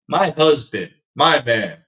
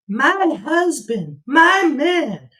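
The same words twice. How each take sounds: First: It is said in the speaker's normal voice. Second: It is said in a put-on wife's voice.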